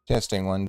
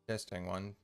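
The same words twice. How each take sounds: First: The audio has lighter crackling and popping. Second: The audio has heavier crackling and popping. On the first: The speaker calls it right. "it's still a little crackly, but it sounds better" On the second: The speaker calls it wrong. "That's worse"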